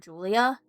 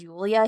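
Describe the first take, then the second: First: The name begins with a J sound. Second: The name begins with a Y sound. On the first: The speaker calls it wrong. "He always calls her Julia. But that's not how it's pronounced" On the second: The speaker calls it right. "he never says Yulia"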